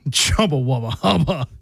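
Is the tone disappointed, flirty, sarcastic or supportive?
sarcastic. It is said in a sarcastic tone.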